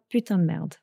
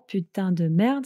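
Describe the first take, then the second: First: Said quickly, with syllables run together and reduced. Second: Said carefully, with every syllable fully pronounced.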